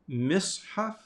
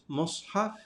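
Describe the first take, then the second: First: The first vowel is an i sound. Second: The first vowel is an u sound. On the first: "it can have a kasra" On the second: "It can have a dhamma"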